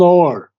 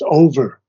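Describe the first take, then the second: First: The word has one syllable. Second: The word has two syllables. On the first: The speaker calls it right. "it's one syllable" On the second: The speaker calls it wrong. "you cannot pronounce it as over"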